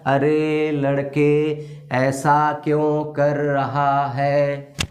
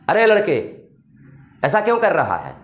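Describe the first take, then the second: First: It is read flatly, word by word. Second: It is said with a warning expression.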